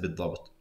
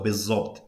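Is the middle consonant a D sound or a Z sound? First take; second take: D sound; Z sound. First: The middle consonant is a d sound. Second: The middle consonant is a z sound. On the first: "she actually says" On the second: "is what I would say"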